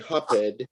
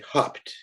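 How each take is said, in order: First: The word is said with two syllables. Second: The word is said with one syllable. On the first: The speaker calls it wrong. "we don't say hopped" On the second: The speaker calls it right. "We say hopped. So it's just one syllable"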